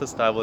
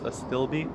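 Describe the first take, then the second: First: Astilbe wrongly said as "uh-STY-bull"; mispronunciation. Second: Astilbe said as "uh-STILL-bee"; correct pronunciation. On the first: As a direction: say astilbe to rhyme with "libel", long i. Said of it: "It's not pronounced astilbe". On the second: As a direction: say astilbe with a short i, ending in "bee". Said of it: "It's not pronounced astilbe, it's astilbe". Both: Shown as a demonstration.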